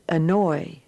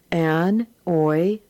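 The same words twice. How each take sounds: First: Said in the usual way. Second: An-oy spoken as an then oy; An-oy sounded out for the class; split in syllables. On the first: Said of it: "and then as the whole word". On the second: Shown as a demonstration. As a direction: sound out An-oy in two parts. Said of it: "read the words as two syllables".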